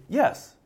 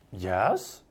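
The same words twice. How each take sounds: First: Bright, high, willing "Yes"; a genuine "Yes", pitched up and agreeable; sincere yes. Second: Low, doubting "Yes" meaning no; sarcastic yes. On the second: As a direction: let "Yes" sink low in disbelief. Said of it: "in the inflection of his tone, the tone of voice". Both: Shown as a demonstration.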